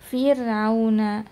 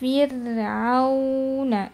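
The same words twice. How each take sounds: First: The 'au' is rushed straight into the 'n'. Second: The 'au' is fully rounded before the 'n'. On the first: The speaker calls it wrong. "belum sempurna monyongnya sudah ke huruf nun" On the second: The speaker calls it right. "monyong sempurna"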